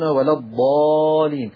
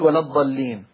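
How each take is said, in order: First: The long vowel before the doubled consonant is kept. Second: The long vowel before the doubled consonant is dropped. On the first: The long vowel is preserved so it does not disappear. The speaker calls it right. "فحرصا على عدم الزوال يقولون" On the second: The long vowel disappears because two consonants meet. The speaker calls it wrong. "عشان ما حدش يقول"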